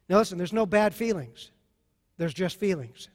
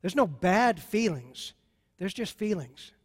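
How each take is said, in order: First: Said in the usual way. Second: "There's no bad feelings" slowed down with weight on "no"; slow emphatic repeat. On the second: Shown as a demonstration. Pastor repeating a point to the congregation, slow and deliberate. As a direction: repeat it slowly so it sinks in. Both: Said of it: "Got that?".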